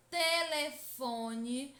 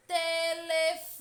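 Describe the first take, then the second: First: Said in the usual way. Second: "Telefone" called out high and loud, FO held very long; "Telefone" in a raised, sustained call, lingering on FO; calling someone slowly. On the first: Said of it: "basta pronunciar lentamente". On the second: Shown as a demonstration. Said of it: "como se estivesse chamando alguém".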